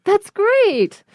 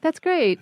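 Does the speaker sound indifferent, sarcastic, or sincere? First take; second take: sincere; indifferent. First: It sounds sincere, with strong stress on great. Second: It sounds flat and indifferent, without enthusiasm. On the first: The speaker really thinks it is great. "the straight way" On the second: The speaker thinks it is just okay. "Like okay"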